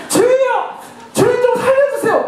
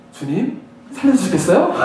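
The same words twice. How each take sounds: First: High-pitched, urgent cry to God; acted desperate cry for rescue; desperate plea. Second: Understated, over-courteous plea; mock polite prayer. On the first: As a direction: beg for your life in acted prayer. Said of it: "막 이렇게 간절하게 나오는 거예요". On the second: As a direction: ask for rescue as if requesting a small favour. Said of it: "이러면서 하지 않아요".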